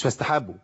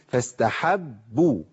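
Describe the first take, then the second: First: فاستحبوا with a single light ba, shadda dropped; فاستحبوا clipped, no shadda; wrong light ba. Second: فاستحبوا with the shadda on the ba held doubled, slowly; فاستحبوا drawn out with a doubled ba; correct doubled ba. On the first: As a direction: say فاستحبوا without doubling the ba. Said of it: "فاستحبوا؟ لا". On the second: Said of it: "مش فاستحبوا". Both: Shown as a demonstration.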